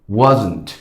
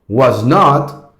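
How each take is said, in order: First: It is said as one contracted word. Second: It is said as two full separate words. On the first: "La contraction ... wasn't"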